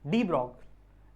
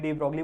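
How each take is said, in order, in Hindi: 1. नाम 'brog' पर खत्म होता है, उसमें 'lee' नहीं है। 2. नाम एक साफ 'lee' की आवाज़ पर खत्म होता है। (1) "रियल प्रोनाउंसिएशन इनका" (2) "इनको मैं डी ब्रॉगली डी ब्रॉगली बोलता हूं"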